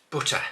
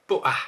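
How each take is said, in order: First: Butter with the T said clearly; butter, full clear T; crisp T. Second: Butter said as bu'er, T dropped; Butter with a glottal stop. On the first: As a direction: hit the T in butter. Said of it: "it's butter". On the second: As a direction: swallow the T in Butter. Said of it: "We never ever do that". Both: Shown as a demonstration.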